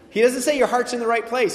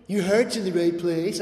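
First: "say" pressed hard and louder in "He doesn't say your heart's in the right place"; louder, insistent "He doesn't say your heart's in the right place"; emphatic correction. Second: Gentle, encouraging "Your heart's in the right place"; wrong gentle reading. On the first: Shown as a demonstration. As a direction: correct it firmly, leaning on "say". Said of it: "he doesn't say that". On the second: Pretend. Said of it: "Okay, he doesn't say that".

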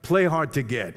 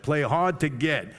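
First: Said in the usual way. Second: "Play hard to get" slowed, leaning on "hard"; slow emphatic advice. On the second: Shown as a demonstration. Father advising daughters, slow stress on "hard". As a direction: drag out "hard", each word deliberate. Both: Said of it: "I tell all my daughters that".

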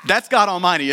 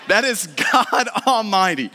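First: Said in the usual way. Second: Drawn out with a laugh in it; slow, laughing emphasis. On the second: Acted. Preacher marvelling at God Almighty, laughing slowly. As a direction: savour each word, chuckling. Repeats the phrase with delight.

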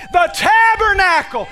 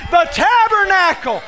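No difference in how they are said.

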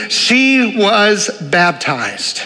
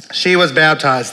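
First: "she was baptized" stretched very slowly; slow it right down on each word; drawn-out emphasis. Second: Said in the usual way. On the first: Acted. Preacher to congregation, marking the baptism, very slow.

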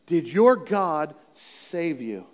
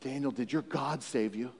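First: Slow repeat. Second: Much softer, hushed question; quiet question. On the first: Shown as a demonstration. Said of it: "here Darius is waking up". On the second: Retold or imitated. King asking Daniel softly after the night. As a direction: ask it softly, almost afraid. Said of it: "He said".

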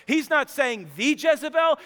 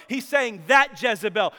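First: "the" stressed as a full "thee", pitched up; higher pitch, emphatic "the". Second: "that" punched as the correcting word; emphatic, pointed "that"; stress on THAT. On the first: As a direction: punch "the" to mean the one and only. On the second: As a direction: lean hard on "that" against "the". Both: Shown as a demonstration.

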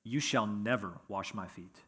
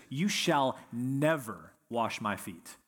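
First: Said in the usual way. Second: Slow, firm "You shall never wash my feet." with NEVER leaned on; preacher voicing Peter's horrified, slow insistence; emphatic refusal. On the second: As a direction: Peter flatly refusing, each word deliberate. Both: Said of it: "He's that emphatic about it".

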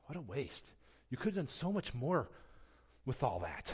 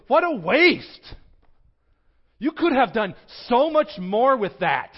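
First: Quiet self-reproach. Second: Loud, high indignant cry of protest; scolding outburst. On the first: Preacher hearing himself in the disciples, quiet rueful echo. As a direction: turn the complaint inward, quietly. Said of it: "I hear myself in that". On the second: Disciples scolding the woman, loud indignant outburst. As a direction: blast it out like an outraged disciple. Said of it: "they go". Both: Retold or imitated.

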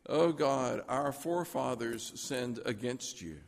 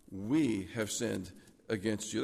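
First: "forefathers" given the weight, blame placed on them; stress on forefathers. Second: "We" drawn out and weighted, slow and low; stress on WE. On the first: Preacher showing the prayer Daniel avoided, stress on "forefathers". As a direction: lean on "forefathers", let "against you" drop. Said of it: "Daniel could have prayed". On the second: Preacher showing what Daniel really prayed, "We" stressed and stretched. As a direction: hit "We" slowly, owning the sin. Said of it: "But he didn't. He said". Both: Shown as a demonstration.

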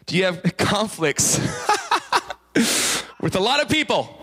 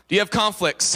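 First: Laughing through the question. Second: Said in the usual way. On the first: Real, not acted. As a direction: breaks into laughter while asking.

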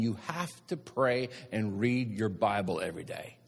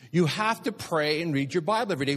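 First: Said in the usual way. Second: "You have to pray" pitched up high and insistent; emphatic repeat. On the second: Real, not acted. Preacher repeats his rule to congregation, "have to pray" urgently emphatic. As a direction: drive home "pray and read your Bible" on raised pitch. Same instruction repeated with force.

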